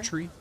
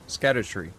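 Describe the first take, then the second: First: The word sounds like 'scadu-tri'. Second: The word sounds like 'scatter-tree'. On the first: The speaker calls it wrong. "Pretty sure Scadutry isn't" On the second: The speaker calls it right. "Scattertree is uh, probably the proper pronunciation"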